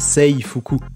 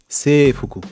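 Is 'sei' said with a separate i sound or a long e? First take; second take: separate i; long e. First: The i after the e is sounded separately. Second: The e is lengthened with no separate i. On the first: The speaker calls it wrong. "pas seifuku" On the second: The speaker calls it right. "le I il va allonger la syllabe E"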